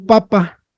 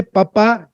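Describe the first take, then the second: First: Papa with the stress on the first pa; stress on first syllable. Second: Papá with the stress on the final pá; stress on last syllable. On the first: Teacher contrasting two words for the class, papa stressed at the start. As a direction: say papa, unaccented ending, first syllable strong. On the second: Teacher contrasting two words for the class, papá stressed at the end. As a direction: say papá, accent landing on the second syllable. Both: Shown as a demonstration.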